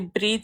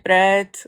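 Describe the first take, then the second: First: The vowel is a long 'ee' sound. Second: The vowel is a short 'eh' sound. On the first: This is how the speaker's own local accent says it. "like I say breed" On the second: This is the standard form the speaker does not use. "instead of bread"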